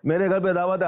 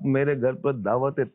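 First: It is said in a harsh, curt tone. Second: It is said in a soft, gentle tone. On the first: The guest feels unwelcome. The speaker calls it wrong. "اب بولو گے بھائی دعوت ہی مت" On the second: The guest feels warmly welcomed. The speaker calls it right. "یہ نرم"

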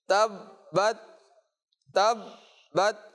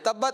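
First: The doubled b is pressed firmly and held. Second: The doubled b is said lightly without holding. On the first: The speaker calls it right. "صحیح، یعنی خوب آپ نے یہاں پر جماؤ کے ساتھ پڑھنا ہے" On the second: The speaker calls it wrong. "تبت نہیں پڑھنا"

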